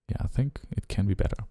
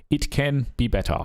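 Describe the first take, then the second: First: Said in the usual way. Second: "can" lifted high and firm; stress on can. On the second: Real, not acted. Producer convincing himself the track can improve, "can" stressed. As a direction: push "can" up, sure of it.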